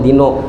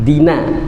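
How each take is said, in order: First: The final vowel is a rounded 'o'. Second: The final vowel is a clear open 'a'. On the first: The speaker calls it wrong. "kada mau dino" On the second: The speaker calls it right.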